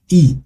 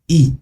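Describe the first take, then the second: First: The letter is given its Kinyarwanda pronunciation. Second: The letter is given its Kinyarwanda pronunciation.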